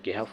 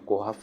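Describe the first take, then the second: First: The first vowel is a front e. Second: The first vowel is a rounded o. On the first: "कोहफ या केहफ वगैरह नहीं पढ़ते हैं" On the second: "कोहफ या केहफ वगैरह नहीं पढ़ते हैं"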